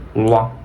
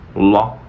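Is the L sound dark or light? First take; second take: dark; dark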